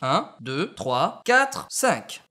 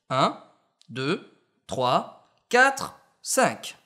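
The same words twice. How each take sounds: First: The numbers follow quickly with the gaps removed. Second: Silent gaps are left between the numbers. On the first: The speaker calls it right. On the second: The speaker calls it wrong.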